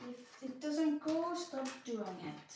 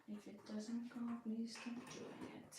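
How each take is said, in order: First: Slow, higher opening that drops at the end; firm self-advice. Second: Soft self-plea. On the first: Puzzler reminding herself of her own advice, firm and slow. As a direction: spell out a rule to yourself, slowly. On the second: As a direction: beg yourself softly, leaning on "please". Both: Real, not acted. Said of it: "I keep literally telling myself".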